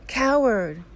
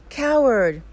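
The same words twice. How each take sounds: First: Mountain's loud, high shout back; echoed scream. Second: High, loud shouted insult, falling at the end; angry scream. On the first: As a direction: throw the shouted word back like an echo. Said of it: "He receives the answer". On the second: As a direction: hurl it at the mountain in anger. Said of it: "he screams". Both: A narrator's reading.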